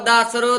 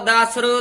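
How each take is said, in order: Both takes have the same delivery.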